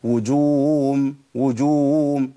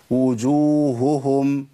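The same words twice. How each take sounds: First: وجوههم said as wujum, the ه sounds gone; demo of the error. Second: وجوههم with both ه sounds pronounced, slow; each ه in وجوههم clearly heard; correct double h. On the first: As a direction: show how the ه disappears in وجوههم. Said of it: "الخطأ". (الخطأ في وجوههم) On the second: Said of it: "ده الصواب". (الصواب في وجوههم) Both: Shown as a demonstration.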